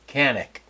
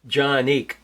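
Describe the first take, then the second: First: The name begins with a K sound. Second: The name begins with a J sound. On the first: "in English we would say canic" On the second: "In Turkish, the C's like a J"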